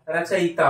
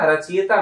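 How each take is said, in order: First: रचयिता as "rachayita", with "i" after "y"; correct pronunciation. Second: रचयिता as "rachiyata", with "i" before "y"; wrong pronunciation. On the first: Teacher answering own question, "rachayita". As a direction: say रचयिता as "ra-cha-yi-ta". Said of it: "ये रचयिता होगा". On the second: Teacher rejecting the misspelling, "rachiyata". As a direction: say रचयिता as "ra-chi-ya-ta". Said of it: "नहीं होगा". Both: Shown as a demonstration.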